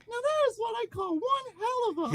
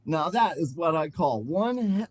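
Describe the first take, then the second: First: Very high falsetto ring character; high-voiced LaFranc. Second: Said in the usual way. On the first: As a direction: squeal it out in a put-on falsetto. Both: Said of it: "oh, I'm sorry".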